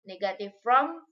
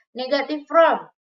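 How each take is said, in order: First: Said in the usual way. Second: Heading called out higher and louder; teacher calling out the section title; loud announced heading. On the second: Shown as a demonstration. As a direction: announce the new section loudly to the class. Teacher repeats the heading twice.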